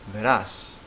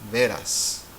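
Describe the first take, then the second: First: The stress is on the last syllable. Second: The stress is on the first syllable. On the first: You will see. "pronounced loudly at the end, stressed at the end" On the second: Truly. "as in de veras"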